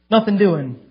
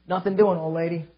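First: Louder, with the weight on "Nothing"; firm refusal. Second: Said in the usual way. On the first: Retold or imitated. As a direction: repeat it harder, shutting the door. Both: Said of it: "She said".

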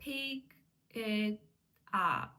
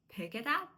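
First: "pick it up" split by clear pauses; word by word. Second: "pick it up" merged into one word; linked words. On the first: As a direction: say "pick", "it", "up" each separately. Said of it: "не вимовляють окремо кожне слово". (окремо кожне слово з паузами) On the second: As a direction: run "pick it up" together without any gaps. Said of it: "А вони зливають і кажуть". (злито, як одне слово) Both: Shown as a demonstration.

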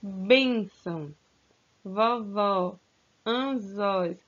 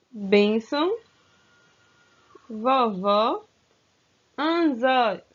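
First: Teacher rereading the words in a calmer voice; repeated more calmly. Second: "Bênção", "vovó", "anzóis" each read loud, with the stressed syllable hit hard; first reading of the list. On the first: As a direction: repeat the list gently so they can listen. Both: Shown as a demonstration. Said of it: "Vou repetir novamente".

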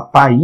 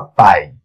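First: "pai" mispronounced as pa-Í, in two syllables; stress on the I. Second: "pai" as one syllable, PAI, with a strong a; stress on the A. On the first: Teacher testing which vowel is stronger, "pai" said wrongly as pa-Í. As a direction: say "pai" like "paí", stressed on the final i. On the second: Teacher offering the real word, "pai" as one syllable led by A. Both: Shown as a demonstration. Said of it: "A vogal é a mais forte".

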